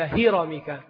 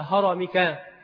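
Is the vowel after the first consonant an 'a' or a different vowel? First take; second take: different vowel; a. First: The first consonant is followed by a non-'a' vowel. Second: The first consonant is followed by an 'a' vowel. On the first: The speaker calls it wrong. "ليس" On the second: The speaker calls it right. "بفتح الهاء"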